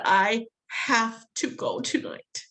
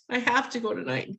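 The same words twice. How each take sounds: First: Slow firm insistence. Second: Said in the usual way. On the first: Retold or imitated. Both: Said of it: "I finally said".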